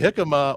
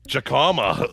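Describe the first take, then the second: First: The word has its usual standard pronunciation. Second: The word has a regional Pittsburgh pronunciation. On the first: "You can either say jicama" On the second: "or jacama if you're from Pittsburgh"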